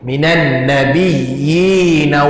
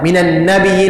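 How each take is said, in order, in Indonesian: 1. Vokal sebelum n itu dibaca panjang. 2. Vokal sebelum n itu pendek dan cepat. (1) "perlu dipanjangkan ya baris bawah ni" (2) "dia tak baca panjang, dia baca laju je"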